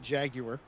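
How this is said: It is said with a British pronunciation. The speaker calls it right. "I will pronounce it appropriately"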